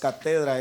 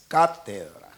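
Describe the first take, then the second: First: The stress is not on the first syllable. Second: The stress is on the first syllable. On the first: The speaker calls it wrong. "no le puse el acento a la A" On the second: The speaker calls it right. "es cátedra"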